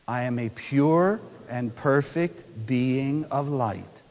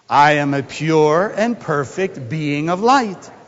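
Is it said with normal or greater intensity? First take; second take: normal; greater. First: It is said with normal intensity. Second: It is said with greater intensity.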